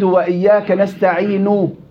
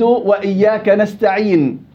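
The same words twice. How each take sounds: First: The final n is pronounced with a vowel. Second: The final n is silent, without a vowel. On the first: The reader is continuing without stopping. "أصلها ... النون محركة" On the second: The reader is stopping at the end of the verse. "النون ساكنة"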